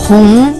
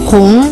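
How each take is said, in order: No difference in how they are said.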